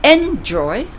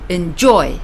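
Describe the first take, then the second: First: EN-joy, wrongly weighted on "en"; wrong-way demo of "enjoy", first syllable stressed. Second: En-JOY, light start, strong finish; corrected demo of "enjoy", second syllable stressed. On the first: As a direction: punch the "EN" of "enjoy", drop the "joy". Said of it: "It's not enjoy". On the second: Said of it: "but enjoy". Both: Shown as a demonstration.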